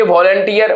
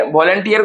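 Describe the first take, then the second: First: Said in the usual way. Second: volunteer in three separate beats; split into syllables. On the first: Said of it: "volunteer को हम लिखते हैं". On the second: Shown as a demonstration. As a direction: break volunteer into vol-un-teer. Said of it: "को हम लिखते हैं".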